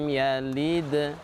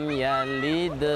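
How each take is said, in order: Both takes have the same delivery.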